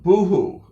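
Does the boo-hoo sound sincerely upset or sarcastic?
sincerely upset. It sounds like real, upset crying. The person is truly crying. "that might be the real, true crying one"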